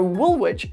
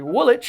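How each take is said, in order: First: The ending is said as spelled, like 'wich'. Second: The ending is said like 'wick'.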